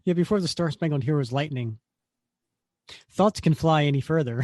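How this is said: There is a pause after lightning.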